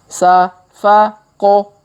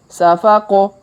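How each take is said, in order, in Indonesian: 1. Suku katanya dibaca lambat dan terpisah. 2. Suku katanya dibaca cepat dan menyambung. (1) "kita baca pelan-pelan" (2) "Kalau dipercepat"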